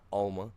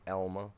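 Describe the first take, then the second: First: The name begins with an 'ah' vowel. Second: The name begins with an 'eh' vowel. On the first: The speaker calls it wrong. "not Alma" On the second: The speaker calls it right. "Elma, not Alma. Get it right"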